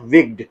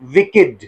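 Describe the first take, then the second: First: The -ed ending is not a separate syllable. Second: The -ed ending is its own syllable. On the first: The speaker calls it wrong. "Not विग्ड" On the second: The speaker calls it right. "It is pronounced as विकेड"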